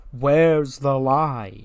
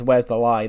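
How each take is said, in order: First: Slow, stretched-out mock taunt; a fan echoing the taunt, slow and teasing; drawn-out taunt. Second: Quoting the sting. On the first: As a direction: drag the catchphrase out to needle the crowd. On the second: Retold or imitated. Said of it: "the sting that says".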